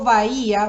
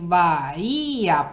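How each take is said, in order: First: The word is said smoothly without breaks. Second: The word is split into separate syllables.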